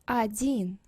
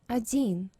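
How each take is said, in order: First: The first vowel sounds almost like 'a'. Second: The same.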